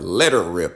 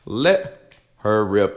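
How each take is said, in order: First: It is said in a rural country accent. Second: It is said in a plain, neutral accent.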